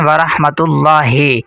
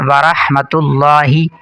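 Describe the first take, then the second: First: The 'ha' sound is drawn out long. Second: The 'ha' sound is kept short. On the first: The speaker calls it wrong. "ये हे गलत है" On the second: The speaker calls it right. "हा को बिल्कुल नहीं खींचना"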